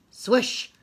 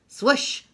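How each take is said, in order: Both takes have the same delivery.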